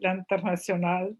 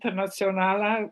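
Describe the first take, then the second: First: The name is said with a French pronunciation. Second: The name is said with a Slovene pronunciation. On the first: "in French would be" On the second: "which is more like Slovene way"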